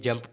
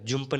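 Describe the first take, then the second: First: The vowel sounds like the 'u' in 'cup'. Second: The vowel sounds like the 'u' in 'put'. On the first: The speaker calls it right. "जंप पढ़ेंगे" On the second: The speaker calls it wrong. "जुम्प नहीं"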